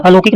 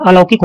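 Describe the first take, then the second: First: अलौकिक said as "alokik"; o-vowel अलौकिक. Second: अलौकिक said as "alaukik"; au-vowel अलौकिक. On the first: Teacher showing the error, o in अलौकिक. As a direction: use pure ओ in अलौकिक. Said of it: "नहीं होता". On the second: Teacher correcting, au in अलौकिक. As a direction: open the middle vowel of अलौकिक to औ. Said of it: "अलौकिक होता है". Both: Shown as a demonstration.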